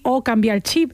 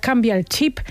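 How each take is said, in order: First: The final p is dropped, Andalusian style. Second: The final p is pronounced, Catalan-speaker style.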